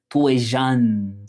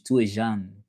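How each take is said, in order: First: "Tú es jeune" said very slowly, word by word; slow French demo. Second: "Tú es jeune" run together at normal speed; "Tú es jeune" said like an easy repeat; French demo at normal pace. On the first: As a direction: spell out "Tú es jeune" for a learner. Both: Shown as a demonstration. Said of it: "So that's how you say it in French".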